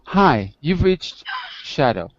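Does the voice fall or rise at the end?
fall. The voice falls at the end, like a statement. It sounds like a statement. The speaker calls it right. "No, no, it's"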